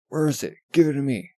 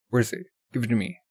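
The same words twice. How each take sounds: First: Higher and louder, barking the demand; angry shout. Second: Firm, steady demand for the eye; lightly voiced demand. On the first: Acted. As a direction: shout it in her face. Villain repeats demand, shouting. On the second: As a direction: ask for it without raising the voice.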